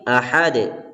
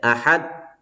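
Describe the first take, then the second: First: The final d ends with an echoing bounce. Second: The final d stops flat without a bounce. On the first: The speaker calls it right. "Akan tetapi ahad" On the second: The speaker calls it wrong. "tidak boleh ahad"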